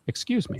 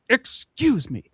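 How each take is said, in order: First: It is said calmly at normal volume. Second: It is screamed loudly.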